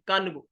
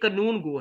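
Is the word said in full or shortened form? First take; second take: shortened; full. First: The first part is clipped to a short syllable. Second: The first part is said fully with two syllables. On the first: This is the everyday spoken form. "आम हरफ़े ज़ुबान में हम कन गो भी कह देते हैं" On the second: This is the original proper form. "ये असल लफ़्ज़ जो है ये कानून गो है"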